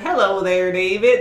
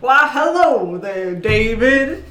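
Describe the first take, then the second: First: It is said without Benoit Blanc's voice. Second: It is said in a Benoit Blanc voice.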